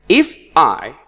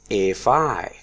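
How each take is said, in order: First: The two words are said separately. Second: The two words are linked together.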